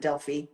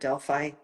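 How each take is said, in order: First: Delphi is said with a Greek pronunciation. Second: Delphi is said with an English pronunciation. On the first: "The Greeks pronounce it Delphi" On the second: "Sometimes we pronounce it Delphi"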